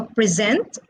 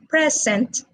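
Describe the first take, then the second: First: "present" with a stressed ending, pre-SENT; stress on second syllable. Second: "present" as in gift, PRES-ent; stress on first syllable. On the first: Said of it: "is stressed on the second syllable". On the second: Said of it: "is stressed on the first syllable". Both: Shown as a demonstration.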